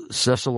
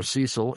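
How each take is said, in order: First: Cecil pronounced SESS-ul; short-e pronunciation. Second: Cecil pronounced SEE-sul; long-e pronunciation. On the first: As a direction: rhyme the start of Cecil with "less". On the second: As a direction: rhyme the start of Cecil with "fee". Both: Shown as a demonstration. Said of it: "I've heard it pronounced both ways".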